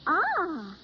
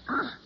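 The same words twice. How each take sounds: First: It sounds pleased. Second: It sounds disgusted.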